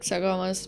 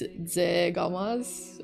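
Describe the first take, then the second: First: The name begins with a ks sound. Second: The name begins with a z sound. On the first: The speaker calls it wrong. "I say X while it's supposed to be Z" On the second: The speaker calls it right. "his name is Zegamas"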